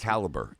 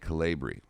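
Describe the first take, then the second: First: The word ends with a plain 'ber' sound. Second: The word ends with a long 'bree' sound.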